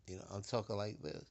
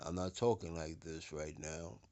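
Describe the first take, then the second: First: Said in the usual way. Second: Deeper bass voice. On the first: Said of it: "like I'm talking to you now". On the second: Shown as a demonstration. Speaker shows listeners the bassy tone, lower and softer. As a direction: demo voice dropped lower, a little softer. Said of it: "They want you to say it like I'm talking to you now".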